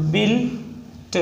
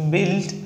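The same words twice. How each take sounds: First: built drawn out in parts, "bil", pause, "t"; sounded out slowly. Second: Said in the usual way. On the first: Shown as a demonstration. Teacher breaking down a shorthand example, sounded out slowly.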